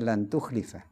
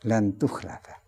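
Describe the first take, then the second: First: The vowel after the L is an i sound. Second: The vowel after the L is an a sound. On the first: Nobody will stay away from the promised punishment. "Tukhlifa itu bisa kasri lam" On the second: You will not be spared from the punishment. "bisa dibaca dengan fathahnya lam"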